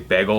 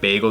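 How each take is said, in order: First: It is said in a Philadelphia accent. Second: It is said in a standard American accent.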